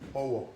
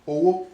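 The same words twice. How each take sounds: First: It carries the tone pattern meaning broom. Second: It carries the tone pattern meaning money. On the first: It means a broom. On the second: It means money.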